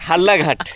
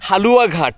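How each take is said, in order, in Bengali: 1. মাঝের অংশগুলো সংকুচিত হয়ে দ্বিত্ব 'ল' হয়ে যায়। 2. নামের সব অংশ পুরোপুরি উচ্চারিত হয়।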